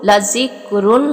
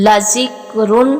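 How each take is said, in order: Both takes have the same delivery.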